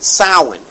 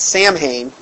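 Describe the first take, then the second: First: The word is pronounced differently from its spelling. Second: The word is pronounced just as it is spelled. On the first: "the witches pronounce it Samhain" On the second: "you'd think you'd say it's Samhain"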